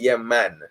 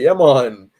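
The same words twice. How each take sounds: First: The last word is short and clipped. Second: The last word has a drawn-out O vowel. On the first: This is how Jamaicans say it. "we say yeah man" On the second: This is how outsiders say it. "everybody like to say it as M O N"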